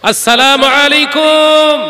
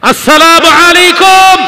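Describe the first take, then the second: First: The greeting is said louder than a normal volume. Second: The greeting is said at its loudest volume. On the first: A second greeting after getting no answer. "আগের থেকে আরেকটু চওড়া উঁচু আওয়াজ করে সালাম দাও" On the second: A third greeting after still getting no answer. "আরো জোরে সালাম দাও"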